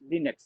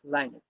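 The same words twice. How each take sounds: First: It is pronounced as speakers outside India say it. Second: It is pronounced as most Indian speakers say it. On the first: "the people who are from the outside India. They'll pronounce Linux" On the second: "As an Indian, most of them we pronounce Linux"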